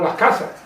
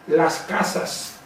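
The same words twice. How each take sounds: First: The s sounds become a soft aspiration. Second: The s sounds are fully pronounced. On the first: "la S no se pronuncia" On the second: "en castellano"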